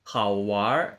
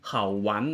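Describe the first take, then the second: First: The ending merges into an r sound, no n. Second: The ending keeps a separate n sound. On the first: The speaker calls it right. "จะรวบเป็นคำเดียวเลยนะครับ" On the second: The speaker calls it wrong. "มันจะไม่เป็นเขาหวันเนอะมันจะไม่เป็นแบบนี้"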